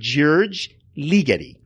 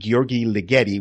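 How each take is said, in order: First: The first name sounds like English George. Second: The first name does not sound like George. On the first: The speaker calls it right. "I think it's George, like George" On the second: The speaker calls it wrong. "I think I've always been pronouncing it Gheorghe Ligeti, which I think is totally wrong"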